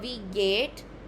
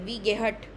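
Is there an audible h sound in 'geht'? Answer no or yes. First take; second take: no; yes. First: No h sound is heard in the word geht. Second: An h sound is heard in the word geht. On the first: The speaker calls it right. "एच silent रहता है" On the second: The speaker calls it wrong. "गेहट नहीं होगा ये"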